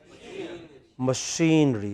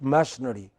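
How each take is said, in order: First: The stress is on the second syllable. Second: The stress is on the first syllable. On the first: The speaker calls it right. "What is it? Machinery" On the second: The speaker calls it wrong. "It is not machinery"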